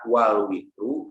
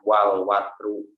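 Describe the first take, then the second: First: The word is said with an i vowel. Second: The word is said with an a vowel. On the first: "fatil wawi wa asri ... bisa dibaca wal witru" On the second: "bisa dibaca wal watru"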